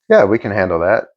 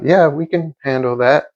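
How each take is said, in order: First: It is said in a certain, assured tone. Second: It is said in an unsure, hesitant tone. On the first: The job is no problem for us. The speaker calls it right. "just being certain in what you say" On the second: We might not be up to the job. The speaker calls it wrong. "saying it like that, that's doesn't instill doesn't instill confidence"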